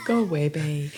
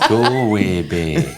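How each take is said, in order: First: Softer, slower Irish Galway Bay; gentle stage Irish; quiet mock Irish. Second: Slow, laughing Irish lilt; laughing through a fake Irish accent; mock Irish accent. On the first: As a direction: murmur Galway Bay like a local. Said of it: "There's an accent coming". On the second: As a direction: stretch Galway Bay in a stage Irish accent. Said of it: "That's not the accent we were looking for".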